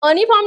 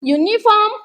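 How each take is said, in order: First: The word starts with an 'uh' sound. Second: The word starts with a 'yoo' sound. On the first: The speaker calls it wrong. "अनिफॉर्म नाही म्हणत" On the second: The speaker calls it right. "य सारखा करतोय"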